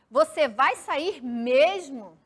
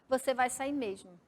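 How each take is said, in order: First: It has a question intonation on the last word. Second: It has a flat declarative statement intonation. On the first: The speaker is asking whether the listener will leave. "É diferente" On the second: The speaker is asserting that the listener will leave. "se eu ler como se fosse um ponto final, eu ia ler como uma frase afirmativa, declarativa"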